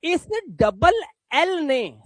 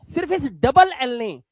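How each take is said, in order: First: इस double एल ने spelled out slowly; slow emphasis. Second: इस punched as the key word; stress on इस. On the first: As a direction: lay it down slowly for the class. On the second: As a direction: point at this very double L. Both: Shown as a demonstration. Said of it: "इस ए की आवाज को ओ कर दिया".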